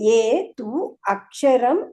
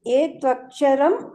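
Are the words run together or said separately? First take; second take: separately; run together. First: The words are said separately, unjoined. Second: The words are run together as one word.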